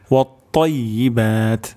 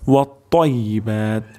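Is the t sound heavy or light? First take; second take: heavy; heavy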